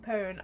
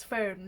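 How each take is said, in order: First: Pone said with a plain p, no f sound; mum's misspelling. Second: Phone said properly with the f sound; correct pronunciation. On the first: Teasing mum's typo, pone with a hard p. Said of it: "She would type phone as P O N E". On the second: Correcting mum, phone said properly. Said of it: "we'd be like, "Mum, it's phone". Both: Retold or imitated.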